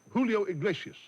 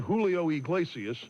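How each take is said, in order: First: Julio Iglesias said the Spanish way, ee-GLAY-syas; a quick Spanish Julio Iglesias; Spanish pronunciation. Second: Julio Iglesias with an American accent; American accent Spanish. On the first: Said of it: "how about". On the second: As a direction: Iglesias said the gringo way, ig-LAY-see-us. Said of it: "Instead of". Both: Shown as a demonstration.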